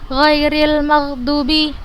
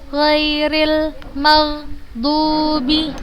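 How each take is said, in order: First: The vowel in 'dubi' is cut short. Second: The vowel in 'dubi' is held long. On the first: The speaker calls it wrong. "bukan seperti itu" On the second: The speaker calls it right. "kita panjangkan dua harokat"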